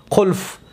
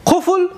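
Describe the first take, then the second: First: قلف said qulf, l before f; colloquial qulf form. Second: قفل said qufl, f before l; standard qufl form. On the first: Teacher showing how we say it locally, قلف as qulf, l before f. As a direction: say قلف with the l moved ahead of the f. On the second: Teacher contrasting the word with local speech, قفل as qufl, f before l. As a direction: say قفل with the f ahead of the l. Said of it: "لام اول میاریم". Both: Shown as a demonstration.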